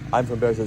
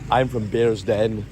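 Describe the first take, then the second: First: Bearsden is said in a general accent. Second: Bearsden is said in the local accent. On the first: The speaker calls it wrong. "they don't say I'm from Bears Den" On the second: The speaker calls it right. "they say I'm from Bears Den"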